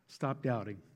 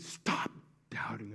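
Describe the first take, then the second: First: It is said in a gentle, fatherly tone. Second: It is said in an angry, harsh tone. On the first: The speaker is kindly reassuring the listener. "Or was it that more paternal" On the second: The speaker is annoyed with the listener. "Was he angry?"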